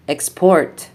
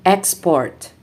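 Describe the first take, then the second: First: ExPORT, stressed on the second syllable; light ex, strong PORT in export; verb stress. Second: EXport, stressed on the first syllable; noun stress. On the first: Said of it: "verbs are stressed on the second syllable". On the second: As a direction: punch EX in Export, then fall. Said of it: "nouns are stressed on the first syllable". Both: Shown as a demonstration.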